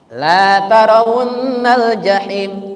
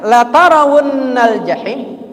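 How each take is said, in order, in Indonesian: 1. Vokal pada la dibaca panjang. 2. Vokal pada la dibaca pendek. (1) "Coba kalau dibaca panjang" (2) "kalau pendek bacanya"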